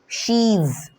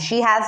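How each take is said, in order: First: The words merge into one short syllable. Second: Two separate words are said in full.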